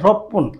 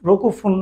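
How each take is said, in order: First: It is said as one contracted word, roppun. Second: It is said as two words, roku fun. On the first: The speaker calls it right. "বলতে হবে রপ্পুন" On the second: The speaker calls it wrong. "রকু রকু ফুন না বলে"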